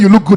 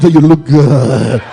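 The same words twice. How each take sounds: First: It is said in a plain, ordinary voice. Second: It is said in a low, seductive voice. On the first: It is a simple friendly compliment. The speaker calls it right. "Instead of saying" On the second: The man is flirting with her. The speaker calls it wrong. "bedroom voice"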